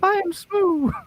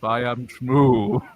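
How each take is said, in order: First: The voice is put on very high. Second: The voice is put on very deep. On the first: "meet in the middle" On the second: "take the deep out of it"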